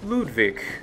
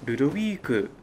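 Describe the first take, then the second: First: The name is said with a German pronunciation. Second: The name is said with a Japanese pronunciation. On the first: "German speakers may say Ludwig" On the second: "while to Japanese players it's Ludovic"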